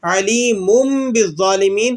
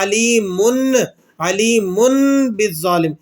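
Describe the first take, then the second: First: علیم ending in a held "mumm" before بالظالمین; iqlab, tanween as meem. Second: Slow علیمن ending on a clear n; plain noon tanween. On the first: Teacher showing how we are reading it, iqlab recitation. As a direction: hum m in place of n at the end of علیم. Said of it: "کس طرح پڑھ رہے ہیں؟". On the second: Teacher showing how it would otherwise read, plain noon tanween. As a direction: say "aleemunn", the n kept in علیمن before بالظالم. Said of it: "پڑھنا تو کس طرح چاہیے تھا". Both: Shown as a demonstration.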